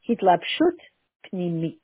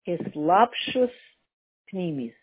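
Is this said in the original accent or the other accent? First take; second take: other; original. First: It is said in a different, other accent. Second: It is said in the speaker's original accent.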